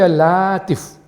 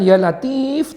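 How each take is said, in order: First: The vowel after the L is long. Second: The vowel after the L is short. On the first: It calls on the name of a jinn. The speaker calls it wrong. "tapi Ya Latif. Jadi lam, alif, to, fa. Itu salah satu nama jin" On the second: It calls on God as the Most Gentle. The speaker calls it right. "bukan Ya Latif"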